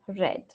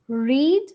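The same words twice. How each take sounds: First: It has the past-tense pronunciation of read. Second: It has the present-tense pronunciation of read. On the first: It is the past participle of the verb. "read in past and past participle is pronounced as read" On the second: It is the base form of the verb. "read in base"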